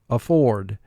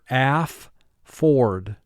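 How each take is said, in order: First: The word is said smoothly as one unit. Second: The word is split with a pause between syllables. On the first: This is how it is said in conversation. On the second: This is said to help with spelling.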